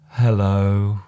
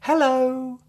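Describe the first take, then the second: First: It is said in a sad tone. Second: It is said in a happy tone. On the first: "a sad hello" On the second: "A happy hello"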